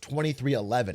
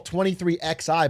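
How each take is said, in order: First: XI is spoken as the number eleven. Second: XI is spoken as two separate letters. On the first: The speaker calls it right. "but it's pronounced twenty-three eleven" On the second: The speaker calls it wrong. "The team I call twenty-three X I"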